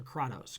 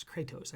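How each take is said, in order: First: Kratos said as KRAH-tohs; alternative pronunciation. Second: Kratos said as KRAY-tohs; preferred pronunciation. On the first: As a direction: say Kratos with an open "ah" in the first syllable. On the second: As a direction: say Kratos with "ay" in the first syllable. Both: Shown as a demonstration. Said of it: "I think is how they s-, pronounce it".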